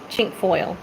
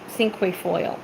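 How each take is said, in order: First: The word begins with a 'ch' sound. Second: The word begins with an 's' sound. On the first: This is the speaker's own way of saying it. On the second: This is how some other people say it. "Some people call it"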